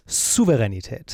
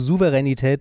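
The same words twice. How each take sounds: First: The word begins with a sharp, voiceless s sound. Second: The word begins with a soft, voiced s sound. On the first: The speaker calls it right. "Also ganz wichtig mit einem scharfen S am Anfang" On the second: The speaker calls it wrong. "ist halt falsch"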